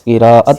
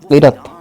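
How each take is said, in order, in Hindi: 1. इस शब्द में तीन अक्षर हैं। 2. इस शब्द में दो अक्षर हैं। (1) "दुरुस्त लफ्ज़" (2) "लफ्ज़ बोलते हैं"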